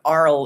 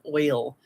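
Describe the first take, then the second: First: It is said with a Saint Louis 'ar' sound. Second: It is said with a standard 'oy' sound. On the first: "they put Arl in the car" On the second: "instead of oil"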